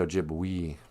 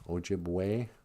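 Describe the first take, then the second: First: The final vowel sounds like 'ee'. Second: The final vowel sounds like 'ay'. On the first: The speaker calls it wrong. "We don't say" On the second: The speaker calls it right. "remember E's sound like A's"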